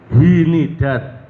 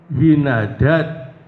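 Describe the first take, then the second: First: The second letter carries an i vowel. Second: The second letter carries an a vowel. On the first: "huruf yang kedua ikut di kasrah juga" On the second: "huruf yang kedua dibaca fathah"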